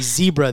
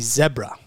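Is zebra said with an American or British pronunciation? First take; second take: American; British. First: Zebra is said the American way, ZEE-bra. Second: Zebra is said the British way, ZEB-ra.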